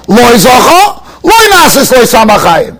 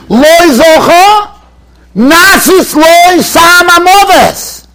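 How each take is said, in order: First: Said in the usual way. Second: "Loi Zocho, Nasis Loi Samamoves" slow and high, each word stretched; drawn-out quote. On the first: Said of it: "why don't we just say". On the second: Shown as a demonstration. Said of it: "Doesn't say that".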